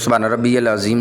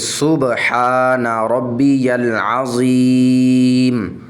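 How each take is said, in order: First: It is said quickly and hurriedly. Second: It is said calmly and slowly.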